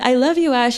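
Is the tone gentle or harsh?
harsh. It is said in a cold, harsh tone. The speaker calls it wrong.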